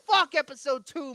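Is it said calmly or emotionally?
emotionally. It is said with strong emotion.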